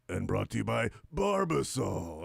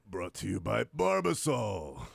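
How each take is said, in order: First: It is said in a high pitch. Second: It is said in a low, deep pitch. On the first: "up here" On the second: "one of them will be down here"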